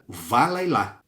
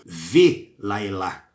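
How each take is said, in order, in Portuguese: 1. A primeira sílaba tem uma vogal 'a' aberta. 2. A primeira sílaba tem uma vogal 'e'. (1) "o Val não tem som de V, ele tem som de Vá mesmo" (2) "ele pronunciou erradamente, como Velaelá"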